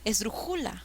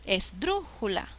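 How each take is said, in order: First: The stress is on the third syllable. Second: The stress is on the second syllable. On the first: The speaker calls it wrong. "Mm, mm" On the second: The speaker calls it right. "Suena mejor"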